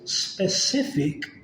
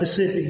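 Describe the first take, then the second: First: The word begins with an s sound. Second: The first s sound is dropped. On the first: "The word is specific" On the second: "we'll say Pacific just because it's just quicker"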